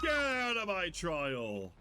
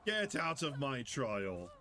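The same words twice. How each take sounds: First: Loud, slow killer yell; hammed-up shout of a territorial killer; mock shout. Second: Said in the usual way. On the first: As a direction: bellow it like the angry killer.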